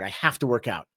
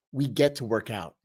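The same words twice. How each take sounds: First: "to" in "have to" leaned on, lower and quieter, a grudging chore; grudging stress on have to. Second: "get" in "we get to" pressed, calm and low, as a privilege; stress on get. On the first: Retold or imitated. Coach mocking the old chore mindset, grudging stress on to. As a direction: sigh out "I have to work out", weight on "to". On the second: Shown as a demonstration. Coach correcting viewers' mindset, firm stress on get. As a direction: land firmly on "get", a settled correction.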